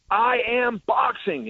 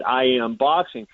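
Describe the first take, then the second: First: Retold boast, high-pitched and drawn out; slow, high mock proclamation; emphatic declaration. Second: Said in the usual way. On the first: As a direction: proclaim it slowly, voice raised high, imitating a cocky fighter. Retelling McGregor's confrontational declaration.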